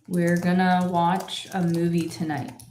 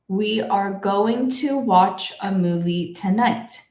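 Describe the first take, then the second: First: The words are contracted into gonna. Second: Every word is pronounced separately in full. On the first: "in my normal speed, I also made this a contraction" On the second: "pronounce every word individually"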